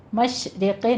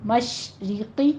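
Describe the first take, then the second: First: مشرقی with i widened towards e, "mashreqe"; wrong vowel demo. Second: مشرقی slowly, with clear thin i vowels; long sh and fine i in مشرقی; thin kasra. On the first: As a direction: show the mistake: loose e vowels in مشرقی. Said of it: "مشرقی نہیں کہنا". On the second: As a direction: model مشرقی drawn out, "mashriqi". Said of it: "کسرہ کی آواز آپ نے باریک رکھنی ہے". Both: Shown as a demonstration.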